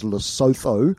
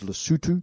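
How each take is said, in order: First: The name is said as its English spelling suggests. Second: The name is said the way local speakers say it. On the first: The speaker calls it wrong. "commonly mispronounced as Lesotho" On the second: The speaker calls it right. "But the pronunciation is Lesotho"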